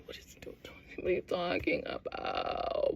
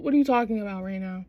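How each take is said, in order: First: Stretched-out mock whisper; retold baffled whisper. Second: Said in the usual way.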